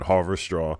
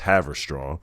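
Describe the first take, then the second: First: The name begins like the word 'Harvard'. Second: The name begins with the short sound 'Haver'. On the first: The speaker calls it wrong. "I called it Harvard-Straw" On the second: The speaker calls it right. "It's Haverstraw"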